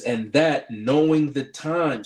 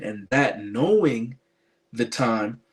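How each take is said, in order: First: Knowing drawn out slow and weighty; stress on knowing. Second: Knowing slowed and pressed; stress on knowing. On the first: Preacher reading Romans to viewers, leaning on knowing. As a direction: lean hard on the word "knowing" and slow down. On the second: Preacher rereading Romans to viewers, slow stress on knowing. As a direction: hit "knowing" slowly again as the key word. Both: Shown as a demonstration. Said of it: "Emphasis on the word know".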